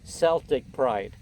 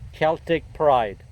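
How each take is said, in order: First: Celtic begins with a soft S sound. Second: Celtic begins with a hard K sound. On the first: This is the name as the New England friends say it. The speaker calls it right. "I should pronounce it Celtic Pride" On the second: This is the name as the speaker first learned it. The speaker calls it wrong. "the pronunciation that I learned of this name is Celtic"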